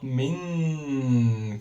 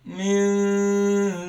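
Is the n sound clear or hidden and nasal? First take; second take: clear; hidden. First: The n is pronounced clearly with the tongue. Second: The n is hidden with a nasal hum. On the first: The speaker calls it wrong. "not min clear one" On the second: The speaker calls it right. "it's hidden noon"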